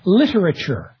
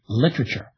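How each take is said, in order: First: Every syllable of the word is pronounced. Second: A syllable of the word is dropped. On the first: "Americans tend to pronounce all the syllables in a word" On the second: "British speakers tend to level out"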